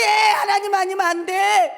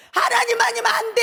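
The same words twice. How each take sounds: First: 하나님 punched loud and high, falling; stress on 하나님. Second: Shouted cry. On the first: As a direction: hit the word 하나님 hard. (하나님에 힘주어 외침) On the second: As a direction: cry it out to the people. (외치는 소리) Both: Shown as a demonstration. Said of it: "여러분에게 외치고 싶은 거예요".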